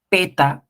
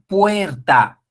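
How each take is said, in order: First: The first syllable is a plain 'pe'. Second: The first syllable is the full 'puer'. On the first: The speaker calls it wrong. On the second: The speaker calls it right.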